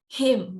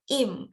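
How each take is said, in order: First: The h at the start is pronounced. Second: The h at the start is dropped.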